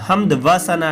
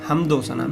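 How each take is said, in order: First: A separate 'va' is said between the words. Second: An 'o' is joined onto the first word. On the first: The speaker calls it wrong. "हमद व सना नहीं" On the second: The speaker calls it right. "मिला करके इस तरह इन अल्फाज को पढ़ा जाता है"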